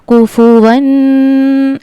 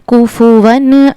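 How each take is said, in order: First: The final n sound is nasalized and prolonged. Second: The final n sound is clear without nasalization. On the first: The speaker calls it wrong. "ऐसे नहीं पढ़ना" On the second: The speaker calls it right. "यहाँ पर गुन्ना नहीं करना"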